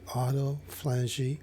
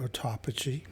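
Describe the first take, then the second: First: Autophagy said as AW-toh-FLAN-jee; alternative pronunciation. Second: Autophagy said as aw-TOP-uh-jee; alternative pronunciation. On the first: Lecturer offering a choice of terms, autophagy as AW-toh-FLAN-jee. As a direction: stress autophagy on first and third syllables, AW-toh-FLAN-jee. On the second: Lecturer giving the other option, autophagy as aw-TOP-uh-jee. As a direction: stress autophagy on the second syllable, aw-TOP-uh-jee. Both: Shown as a demonstration. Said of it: "depending how you wanna pronounce it".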